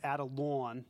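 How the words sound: The name is said in a Brooklyn accent. "In Brooklyn, they pronounce it Adelon"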